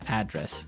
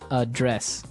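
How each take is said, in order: First: The stress is on the first syllable. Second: The stress is on the second syllable.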